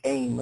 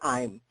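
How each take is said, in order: First: The vowel sounds like the 'ay' in day. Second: The vowel sounds like the 'eye' in eye. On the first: The speaker calls it wrong. "people can mispronounce it or do aim" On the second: The speaker calls it right. "but it's really I'm"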